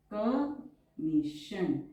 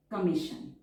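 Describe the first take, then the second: First: Each syllable drawn out very slowly; slow dictation. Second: Said in the usual way. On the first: Shown as a demonstration. Shorthand teacher dictating a word to students, drawn out very slowly. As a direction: dictate it so students can write along.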